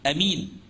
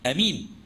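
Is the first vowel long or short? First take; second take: short; short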